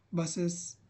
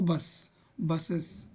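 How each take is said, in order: First: बसेस said as bas-es, slow and clear; plural ending spelled out. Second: बस then बसेस, slowly, stretching the es; slow plural drill. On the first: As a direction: say बसेस with a clear extra es syllable. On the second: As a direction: drag out बसेस like a teacher drilling. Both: Shown as a demonstration. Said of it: "बोल के देखो".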